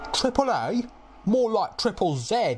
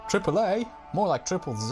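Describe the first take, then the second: First: It is said in a British accent. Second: It is said in an American accent. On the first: "I'll do it with a British one" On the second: "I don't know why I've done an American accent here"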